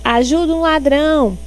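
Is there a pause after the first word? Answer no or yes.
no. It is said straight through without a pause. The listener is asked to help the thief. The speaker calls it wrong. "ela não coloca a vírgula aí"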